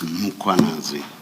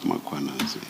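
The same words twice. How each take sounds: First: The name starts with a bare M, no vowel. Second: The name starts with M followed by a vowel. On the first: The speaker calls it right. "There is no A right at the beginning of uh, that first syllable. The A is after the H" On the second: The speaker calls it wrong.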